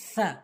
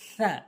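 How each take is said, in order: Both takes have the same delivery.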